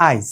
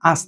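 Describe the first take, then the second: First: আইজ said with an i glide after আ; colloquial আইজ. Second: Said in the usual way. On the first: Shown as a demonstration. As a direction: say আইজ, not আজ. (কথ্য উচ্চারণে আইজ) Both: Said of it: "আজ থেকে আমরা বলি আইজ".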